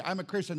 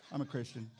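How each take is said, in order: First: Said in the usual way. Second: Deadpan mumble. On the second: Retold or imitated. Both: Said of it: "they just stare at you".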